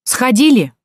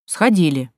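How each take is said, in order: First: Loud, higher barked question. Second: Meek answer. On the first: Watchman snaps at the girls by the toilet, barking. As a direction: bark it sharply at them. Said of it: "рявкнул он". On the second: Girls answer the suspicious watchman, meekly. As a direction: answer obediently with a falling tone. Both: A narrator's reading.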